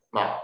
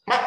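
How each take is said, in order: First: Low, short checked tone on 嘛; 嘛 as a short low syllable; fourth tone. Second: High, short forceful tone on 嘛; 嘛 as a short high punch; eighth tone. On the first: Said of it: "四声是低低音". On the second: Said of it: "八声是悬的低音". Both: Shown as a demonstration.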